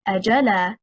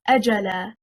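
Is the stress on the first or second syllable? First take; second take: second; first. First: The stress is on the second syllable. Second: The stress is on the first syllable. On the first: It becomes a question particle plus a verb. The speaker calls it wrong. "stressing on the second حركة" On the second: It is one word meaning a term. The speaker calls it right. "The correct stress is on the first حركة"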